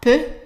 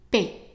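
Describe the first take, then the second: First: The syllable is said with an English vowel. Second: The syllable is said with a French vowel. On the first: The speaker calls it wrong. "not P as in English person" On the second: The speaker calls it right. "it's actually P"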